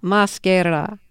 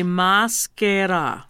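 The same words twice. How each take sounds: First: Maschera, copied carefully in Italian; careful repetition. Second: Maschera, slow and syllable by syllable; slow pronunciation demo. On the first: Host echoes the singer, careful learner's "Maschera". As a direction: repeat "Maschera" syllable by syllable after a coach. Repeating after the pronunciation coach. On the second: Singer tells host what to say, slow careful "maschera". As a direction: model "maschera" slowly with long Italian vowels. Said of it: "I'm doing it slow, so you'll get it". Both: Shown as a demonstration.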